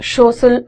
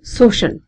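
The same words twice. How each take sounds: First: The s and sh sounds are swapped or merged. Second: It starts with s, then has sh. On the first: The speaker calls it wrong. "लोग सोशल भी बोल देते हैं, इसको बहुत गलत बोला जाता है।" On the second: The speaker calls it right. "यहां स है और यहां श साउंड है।"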